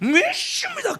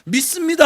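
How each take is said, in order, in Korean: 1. '쉽니다' 쪽으로 미끄러지면서 애원하듯 말했어요. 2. 평범하고 자신 있게 말했어요. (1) "꼭 이게 발음이 쉽니다 이렇게 가는데" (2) "이것도 믿습니다 하면 좋은데"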